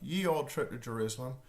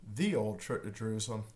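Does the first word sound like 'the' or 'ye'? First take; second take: ye; the. First: The first word begins with a Y sound. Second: The first word begins with a TH sound.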